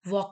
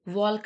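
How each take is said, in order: First: The L sound is silent. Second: The L sound is pronounced. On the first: The speaker calls it right. "वॉक कहते हैं, तो एल is the silent word here" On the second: The speaker calls it wrong. "वॉल्क नहीं बोलते हम इसे"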